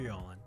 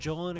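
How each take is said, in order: First: The name starts with a soft Y sound. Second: The name starts with a hard J sound.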